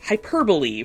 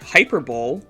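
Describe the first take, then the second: First: The syllables of the word are in order. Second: The syllables of the word are jumbled. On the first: The speaker calls it right. "that'd be hyperbole for everybody at home" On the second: The speaker calls it wrong. "you just kind of mix up all the syllables"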